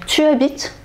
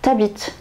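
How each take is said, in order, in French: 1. La voyelle de tu est prononcée en entier. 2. La voyelle de tu tombe et se lie.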